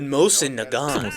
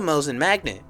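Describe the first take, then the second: First: The second word starts with an N sound. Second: The second word starts with an M sound. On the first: The speaker calls it right. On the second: The speaker calls it wrong.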